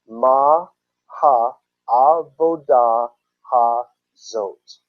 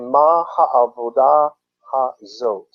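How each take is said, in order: First: It is said slowly. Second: It is said at normal speed.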